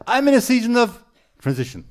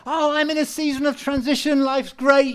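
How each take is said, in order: First: Mock gloomy sigh, still loud; heavy, weighed down. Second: Mock bright and chirpy, much higher and louder; cheerful, upbeat. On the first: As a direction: imitate the burdened way people say it. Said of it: "feel the heaviness that they're living under". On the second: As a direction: play the happy version people never say. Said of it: "they never say".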